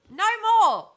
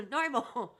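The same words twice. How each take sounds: First: High, loud final declaration; loud shout. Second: Said in the usual way. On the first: Real, not acted. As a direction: shout it to end the matter. Loud declaration after rant.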